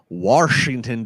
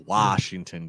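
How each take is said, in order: First: The name is said with a local regional pronunciation. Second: The name is said with a standard pronunciation. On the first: The speaker calls it wrong. "growing up in the uh, Maryland, D C area" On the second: The speaker calls it right. "No, it's not. You're not washing anything"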